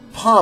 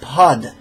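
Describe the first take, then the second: First: The syllable ends without a final consonant. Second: The syllable ends with a clear final consonant. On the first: The speaker calls it wrong. "it's not pa" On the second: The speaker calls it right. "you want to pronounce the consonant"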